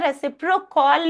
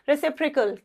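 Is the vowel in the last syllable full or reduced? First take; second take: full; reduced. First: The last syllable has a full 'aw' vowel. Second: The last syllable has a short reduced vowel. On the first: The speaker calls it wrong. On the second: The speaker calls it right.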